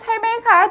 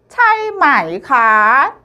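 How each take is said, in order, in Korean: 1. 이 구절은 빠르게 말합니다. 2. 이 구절은 천천히 말합니다. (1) "좀 더 빠르게" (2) "천천히 한번 읽어보겠습니다"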